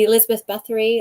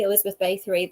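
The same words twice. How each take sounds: First: BATHORY with a short A, as in bath; Bathory as BATH-ree, short flat vowel; short-A pronunciation. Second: BATHORY with a long A, as in bay; Bathory as BAY-thuh-ree; long-A pronunciation. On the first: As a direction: say the first syllable of BATHORY like "bath". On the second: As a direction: say the first syllable of BATHORY like "bay". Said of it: "like, the Elizabeth Bathory". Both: Shown as a demonstration.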